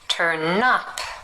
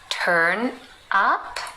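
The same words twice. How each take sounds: First: The n runs into up, like nup. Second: The two words are said separately.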